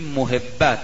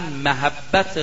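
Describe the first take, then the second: First: The word has its everyday Persian pronunciation. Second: The word has its original pronunciation. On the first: This is how it is commonly said in Persian. The speaker calls it wrong. "ما تو فارسی میگیم محبت" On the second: This is the proper form of the word. The speaker calls it right. "ولی درستش محبته"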